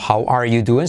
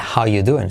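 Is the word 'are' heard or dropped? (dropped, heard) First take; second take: heard; dropped. First: Every word is said, including 'are'. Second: The word 'are' is dropped entirely.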